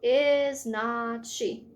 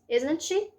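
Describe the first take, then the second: First: Every word is said separately, without contraction. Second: The first two words are reduced into one contraction. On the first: "para não perder o tempo falando is not she" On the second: "A mesma coisa, de forma mais rápida, com a redução"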